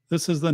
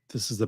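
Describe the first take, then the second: First: The sound has a natural, balanced tone. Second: The sound has a bright, treble-heavy tone. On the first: "This is the natural setting" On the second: "This is the bright setting"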